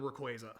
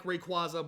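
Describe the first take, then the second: First: Rayquaza with a long AY, ray-KWAY-zuh; alternative pronunciation. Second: Rayquaza with an open AH, ray-KWAH-zuh; preferred pronunciation. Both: Shown as a demonstration. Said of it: "it's not the canon pronunciation".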